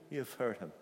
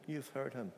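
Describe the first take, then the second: No difference in how they are said.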